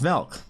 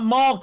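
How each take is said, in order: First: The vowel sounds like 'eh'. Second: The vowel sounds like 'ah'. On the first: The speaker calls it right. "It's Milk. M E L K" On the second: The speaker calls it wrong. "It's not Malk!"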